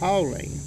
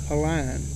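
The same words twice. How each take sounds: First: The last syllable sounds like 'leen'. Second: The last syllable sounds like 'line'. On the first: This is how the name is said today. "Nowadays they would pronounce it" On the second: This is how the name was said back then. "back then I N E was always Ine"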